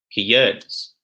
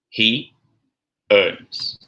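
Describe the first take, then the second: First: The words are joined by a linking y sound. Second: The words are said apart with no linking sound. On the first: "Now in connected speech" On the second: "the words said separately"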